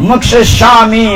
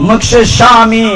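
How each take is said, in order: Both takes have the same delivery.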